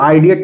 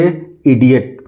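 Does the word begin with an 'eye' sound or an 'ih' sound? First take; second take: eye; ih. First: The word begins with an 'eye' sound. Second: The word begins with a short 'ih' sound. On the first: The speaker calls it wrong. "इसको आइडियट नहीं पढ़ सकते" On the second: The speaker calls it right. "इसको सीधे सीधे हम पढ़ेंगे इडियट"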